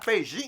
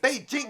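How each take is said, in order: First: The second syllable does not sound like jingle. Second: The second syllable sounds like the start of jingle. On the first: The speaker calls it wrong. "not Beijing" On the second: The speaker calls it right. "if you can say that Jing, that's how you supposed to pronounce it"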